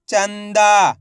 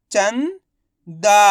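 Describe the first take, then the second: First: चंदा joined, loud long "दा" falling; blended whole word. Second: चंदा in two parts, "चं" rising, pause, long "दा"; very slowly sound out चंदा piece by piece; split into syllables. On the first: Teacher showing learners the result, चंदा blended together. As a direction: say चंदा as one word without a break. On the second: Teacher breaking चंदा down for learners, syllable by syllable. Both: Shown as a demonstration. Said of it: "इनको आपस में मिला के पढ़ना है".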